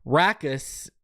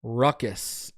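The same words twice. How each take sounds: First: Rackus with the 'a' of cat; drawn-out RACK-us, short 'a'; contrasting pronunciation. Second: Ruckus set apart, with the 'uh' of duck; RUCK-us after a short pause; corrective pronunciation. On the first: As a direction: say Rackus slowly, first part like 'rack'. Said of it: "that's ruckus, my friend". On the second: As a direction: say ruckus lower, first part like 'ruck'. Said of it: "If it's like the noise, that's". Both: Shown as a demonstration.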